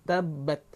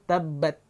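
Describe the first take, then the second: No difference in how they are said.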